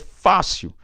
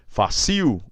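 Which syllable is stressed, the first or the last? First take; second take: first; last. First: The stress is on the first syllable. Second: The stress is on the last syllable. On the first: The speaker calls it right. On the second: The speaker calls it wrong.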